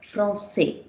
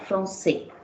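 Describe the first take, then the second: First: Français 读作 fron-SAY, 尾音下降; Français 的 ç 发 s, 单独示范; French français. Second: Français 读作 fron-SAY, ç 发 s 音; français 的 ç 是清楚的 s; French français. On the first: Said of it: "You get the sound there?". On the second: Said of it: "You read it as". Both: Shown as a demonstration.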